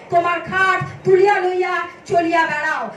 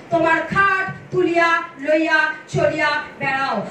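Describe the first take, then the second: The two takes are said the same way.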